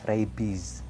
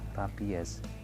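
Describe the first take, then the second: First: The word is pronounced the English way. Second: The word is pronounced the Indonesian way. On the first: This is how the English word is read. "Ini dibaca rabies" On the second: This is how Indonesians say it. "Orang Indonesia menyebutnya rabies"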